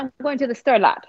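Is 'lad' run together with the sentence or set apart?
run together. Lad is run together with the sentence.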